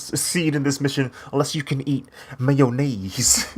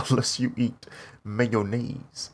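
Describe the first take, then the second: First: Scientist voice, laughing. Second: Drawn-out, deadly serious mock warning; slow deadpan imitation. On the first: Retold or imitated. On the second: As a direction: stretch it out like a grave instruction. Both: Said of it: "That's how he said it".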